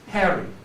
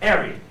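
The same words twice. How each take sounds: First: It starts with a breathy H sound. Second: It starts without an H, Cockney style.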